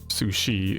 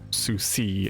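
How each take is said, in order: First: The second consonant is an sh sound. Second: The second consonant is an s sound. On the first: The speaker calls it right. "the C to Shi" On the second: The speaker calls it wrong. "not Sushi ... or something like that"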